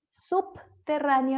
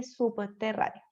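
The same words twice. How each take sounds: First: "Subterráneo" with a hard P, "sup-terráneo"; ultracorrected B. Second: Said in the usual way. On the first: Shown as a demonstration. Teacher shows a common overcorrection, "Subterráneo" with exaggerated hard P. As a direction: split it after a popped P: "sup... terráneo". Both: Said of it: "en vez de subterráneo".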